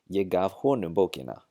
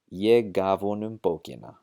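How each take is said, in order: First: The word ham is stressed and keeps its h. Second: The word ham is unstressed and loses its h. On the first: "to stress that he is the one who received it" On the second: "it's unstressed"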